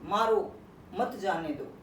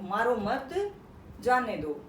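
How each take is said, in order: First: There is a pause after the word maro. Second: There is a pause after the word mat. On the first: Hit him; do not let him go. The speaker calls it wrong. "मारो के बाद अगर मैंने coma लगा दिया तो बड़ी गड़बड़ हो गई" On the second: Do not hit him; let him go. The speaker calls it right. "तो छूट जाता"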